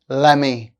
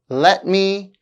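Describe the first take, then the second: First: The words are blended into a reduced form. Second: Both words are said fully and separately.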